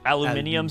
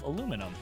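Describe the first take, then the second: First: It is said the British way, five syllables. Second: It is said the American way, four syllables. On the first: The speaker calls it right. "You're going to make me say it the British way?" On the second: The speaker calls it wrong. "you pronounced that incorrectly"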